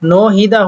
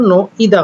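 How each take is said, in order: First: An h sound is pronounced in the middle. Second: The h sound in the middle is dropped. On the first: This is how the spelling would suggest it. "হওয়ার কথা ছিল" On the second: This is how it is actually said. "হলো"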